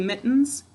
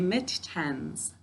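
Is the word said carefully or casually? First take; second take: casually; carefully. First: It is said casually, as in everyday speech. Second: It is said carefully, every sound clearly pronounced. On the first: This is how the word sounds in normal talk. "when I'm speaking, I say mittens" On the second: This pronunciation helps with spelling the word. "To spell it, I say mittens"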